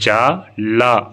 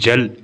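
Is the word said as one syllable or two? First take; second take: two; one. First: It is said as two full syllables. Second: It is said as one closed syllable. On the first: The speaker calls it wrong. "ஜா லா அப்படிங்கிறது" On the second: The speaker calls it right. "ஜல் அப்படின்னு படிக்கணும்"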